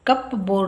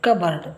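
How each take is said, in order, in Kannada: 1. p ಉಚ್ಚಾರ ಆಗುತ್ತೆ, cup board ಅಂತ. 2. p ಮೌನ, cubberd ಅಂತ. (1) "ಇದು ಕಪ್ ಬೋರ್ಡ್ ಅಲ್ಲ" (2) "ಇಲ್ಲಿ ಪಿ ಸೈಲೆಂಟ್"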